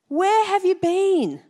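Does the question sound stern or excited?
excited. It sounds excited and eager to hear more.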